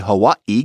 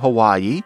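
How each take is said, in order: First: There is a glottal stop before the last syllable. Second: There is no glottal stop before the last syllable. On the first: This is how people from Hawaii say it. "getting in that glottal stop" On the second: This is the usual mainland pronunciation. "We're so used to"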